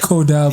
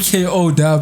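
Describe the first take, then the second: First: It is run together as one word. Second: It is spelled out as separate letters. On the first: The speaker calls it wrong. "He just said Kodab" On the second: The speaker calls it right. "He didn't say K O Dab"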